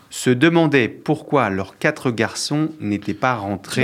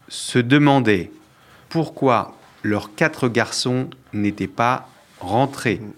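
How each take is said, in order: First: The sentence is read at a fast pace. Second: The sentence is read at a slower pace. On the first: The speaker calls it wrong. "Tu vas trop vite" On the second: The speaker calls it right. "je refais plus lentement"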